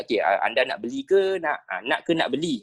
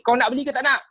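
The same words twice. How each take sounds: First: Polite, measured question to a customer; correct customer intonation. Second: Much higher, pushy challenge; rude intonation. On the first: Teacher shows how to ask a customer properly, polite intonation. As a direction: ask it gently in your ordinary register. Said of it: "intonasi suara yang betul, kita tanya". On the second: Teacher shows how not to ask a customer, rude and high-pitched. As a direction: demand an answer, pitched right up. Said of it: "takkan kita tanya". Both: Shown as a demonstration.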